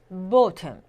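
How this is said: The first vowel is a short rounded 'oh'. "영국에선 거의 bottom 이렇게 오에 가깝습니다"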